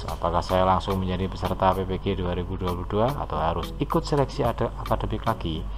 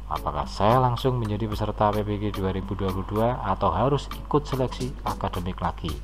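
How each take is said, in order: The two takes are said the same way.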